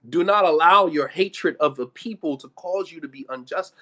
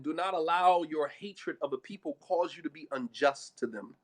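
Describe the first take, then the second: First: Loud, weighty admonition; emphatic repetition. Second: Said in the usual way. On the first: Real, not acted. Preacher quoting Quran to listeners, loud and emphatic. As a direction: press the command home loudly.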